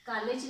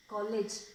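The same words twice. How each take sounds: First: कॉलेज said with a full aa, as "kaalej"; the wrong way: कॉलेज with an open "aa"; wrong college. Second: कॉलेज with a rounded "aw", as "kawlej"; correct college. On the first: Teacher shows students the wrong version: कॉलेज as "kaalej". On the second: Teacher models for students: कॉलेज with a rounded "aw". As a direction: say कॉलेज with the in-between "aw" vowel. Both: Shown as a demonstration. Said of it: "कॉलेज नहीं".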